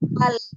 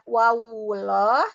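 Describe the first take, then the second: First: The syllable closes directly on the L. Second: An extra vowel is inserted before the L. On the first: The speaker calls it right. "tapi wal" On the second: The speaker calls it wrong. "hati-hati tidak wawullah"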